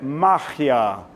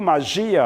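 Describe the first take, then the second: First: The stress is on the first syllable. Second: The stress is on the second syllable. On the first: This is the Spanish word. "a tônica é ma" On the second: This is the Portuguese word. "a tônica é gia"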